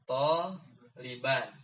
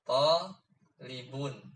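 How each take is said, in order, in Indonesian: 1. Kata ini berakhir dengan vokal a diikuti n. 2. Kata ini berakhir dengan vokal u diikuti n.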